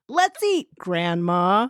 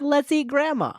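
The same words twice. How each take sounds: First: There is a pause before the last word. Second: There is no pause before the last word. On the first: Grandma is being called to eat. The speaker calls it right. "to save grandma" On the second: Grandma is the food. The speaker calls it wrong.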